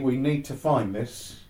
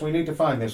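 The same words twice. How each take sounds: First: It is said in the speaker's normal voice. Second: It is said in an imitated, put-on voice.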